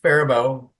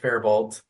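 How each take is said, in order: First: The word ends without a T sound. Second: The word ends with a T sound. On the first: The speaker calls it right. "it's pronounced Faribault. ... the T is silent at the end" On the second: The speaker calls it wrong. "A lot of people pronounce it Faribault"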